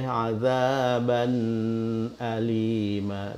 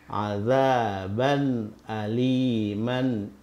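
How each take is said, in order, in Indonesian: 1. Bunyi n di akhir ditahan, tidak jelas. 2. Bunyi n di akhir dibaca dengan jelas. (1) "suara tidak boleh tertahan ... Tidak boleh" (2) "bunyi nun di sini juga dibaca jelas kalau disambungkan"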